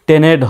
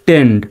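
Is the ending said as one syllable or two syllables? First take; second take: two syllables; one syllable. First: The ending is split into two syllables. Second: The ending is said as one syllable. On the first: The speaker calls it wrong. "স্বাভাবিকভাবে বানান করলে কিন্তু টি ই এন ই ডি টেনেড এরকম হয়" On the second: The speaker calls it right. "সঠিক উচ্চারণটা হবে টেন্ড"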